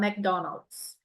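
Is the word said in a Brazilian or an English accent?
English. It is said with an English accent. "a gente não consegue falar"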